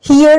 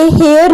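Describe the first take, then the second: First: Teacher models हियर as hee-uh, long ee then a short schwa; correct here. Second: हेयर said as hay-ur with an open e, the mistake to avoid; teacher voices हेयर like hair, the wrong version; wrong pronunciation. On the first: Teacher shows students the right way to say हियर, clear and careful. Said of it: "हेयर नहीं बोलेंगे". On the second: Teacher warns students against saying हेयर like hair. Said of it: "wrong pronunciation". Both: Shown as a demonstration.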